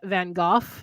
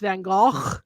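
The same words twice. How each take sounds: First: The name is said the British way. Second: The name is said the native way. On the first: "in England they call him Van Gogh" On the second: "where he's actually from, it's Van Gogh"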